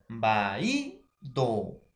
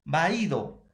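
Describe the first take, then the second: First: "vaído" drawn out as va-í-do; stress on the Í. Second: Said in the usual way. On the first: Shown as a demonstration. Teacher repeating the example, "vaído" broken up with stressed í. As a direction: split "vaído" into syllables, weight on í. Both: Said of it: "mayor fuerza de voz".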